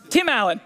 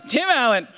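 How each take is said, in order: Both takes have the same delivery.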